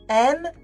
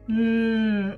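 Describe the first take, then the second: First: The letter is said by its name. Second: The letter is said as its sound. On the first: The reader does not know how to decode the word. The speaker calls it wrong. "ils me disaient M" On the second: The reader can blend sounds into the word. The speaker calls it right. "quand tu connais que le son"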